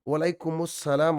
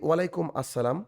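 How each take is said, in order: First: The first word ends in 'umus' before 'salam'. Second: The first word ends in 'um' before 'assalam'. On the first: The speaker calls it right. "Actually উচ্চারণ হচ্ছে ওয়ালাইকুমুস সালাম" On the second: The speaker calls it wrong. "আমরা বলি"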